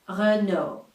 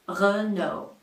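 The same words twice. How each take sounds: First: It is said with a French accent. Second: The same.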